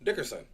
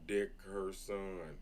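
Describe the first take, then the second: First: The name is said at normal speed. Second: The name is said slowly, syllable by syllable.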